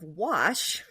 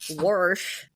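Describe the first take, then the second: First: No r sound comes before the sh. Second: An r sound comes before the sh.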